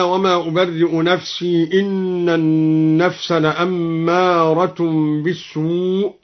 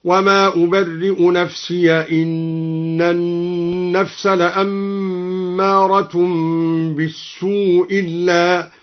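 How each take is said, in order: First: Slow recitation, "نفسي" ending in long ii. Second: Very slow chant, "نفسي" said nafsiya; open ya. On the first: Reciter cites the verse, "نفسي" with long ii. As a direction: recite slowly, holding "نفسي" as nafsii. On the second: Reciter demonstrates al-Duri's reading, "نفسي" as nafsiya. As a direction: draw out the verse, ending "نفسي" in -ya. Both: Shown as a demonstration. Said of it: "قرأ الدوري بفتح الياء وصلا".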